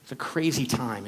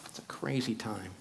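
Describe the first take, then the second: First: Said in the usual way. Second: Soft unvoiced whisper. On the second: Shown as a demonstration. Speaker repeating his musing to the audience, whispered. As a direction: breathe it out as a whisper.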